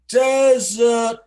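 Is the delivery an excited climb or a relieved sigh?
relieved sigh. It is said softly, like a sigh of relief. A whole nation is relieved at the narrow win. The speaker calls it right. "The relief, like it was like a nation breathed a sigh of relief"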